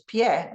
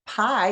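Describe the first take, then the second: First: "pie" in Spanish, sounded pyeh; Spanish "pie", a y glide into an open E; Spanish pronunciation. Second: "Pie" in English, rhyming with my; English "Pie", one gliding eye vowel; English pronunciation. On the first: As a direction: say "pie" as the Spanish word for foot. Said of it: "look very similar in English and Spanish". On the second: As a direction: say "Pie" like the dessert. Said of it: "is a dessert in English". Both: Shown as a demonstration.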